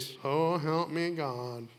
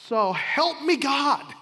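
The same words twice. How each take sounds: First: It is said in a flat, routine monotone. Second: It is said as an earnest, heartfelt plea. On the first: A memorized formula recited without thought. The speaker calls it wrong. "That's the wrong way" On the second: A genuine request for God's help. The speaker calls it right. "Here's the way this should sound when it comes to our vows"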